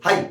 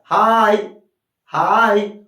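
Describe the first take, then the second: First: Said in the usual way. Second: "हाई" drawn out very long, louder vowel glide; long sound. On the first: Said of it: "आप हाई कैसे बोलते हो". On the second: Shown as a demonstration. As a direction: stretch the vowel of "हाई" well past normal length. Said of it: "लंबा जा रहा है ना sound".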